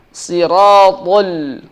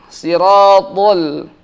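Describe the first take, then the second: No difference in how they are said.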